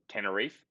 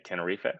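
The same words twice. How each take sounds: First: The name is said with an English pronunciation. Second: The name is said with a Spanish pronunciation. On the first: "the island would be called Tenerife" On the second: "in also Spanish they sort of say Tenerife"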